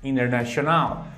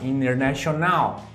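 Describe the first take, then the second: The two takes are said the same way.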